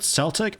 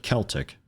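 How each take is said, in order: First: Celtic with a soft C, like "s"; "Celtic" as SEL-tick. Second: Celtic with a hard C, like "k"; "Celtic" as KEL-tick. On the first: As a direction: say Celtic starting with an S sound. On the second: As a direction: say Celtic starting with a K sound. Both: Shown as a demonstration. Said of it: "Is it a hard C".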